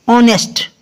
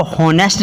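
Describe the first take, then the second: First: "ऑनेस्ट" starting on the vowel; silent H. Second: "हॉनेस्ट" with an audible h at the start; wrongly sounded H. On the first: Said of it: "इसको हॉनेस्ट नहीं पढ़ते". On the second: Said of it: "नहीं पढ़ते". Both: Shown as a demonstration.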